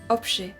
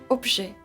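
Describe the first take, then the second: The two takes are said the same way.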